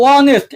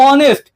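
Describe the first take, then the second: No difference in how they are said.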